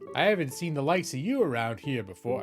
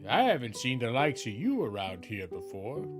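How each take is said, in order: First: It is read in a natural speaking voice. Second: It is read in a put-on character voice.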